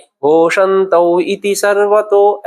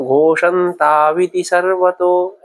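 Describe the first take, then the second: First: घोषंतौ इति सर्वतो read slowly with a break between घोषंतौ and इति; slow, unjoined घोषंतौ इति सर्वतो; split reading. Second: घोषंताविति सर्वतो read slowly as one flowing word with आव, no gap; slow sandhi form घोषंताविति सर्वतो; joined reading. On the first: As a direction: separate घोषंतौ from इति, no sandhi. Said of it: "ऐसा भी पढ़ा जा सकता है". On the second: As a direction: join घोषंताविति without any break. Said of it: "ऐसा बोला है". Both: Shown as a demonstration.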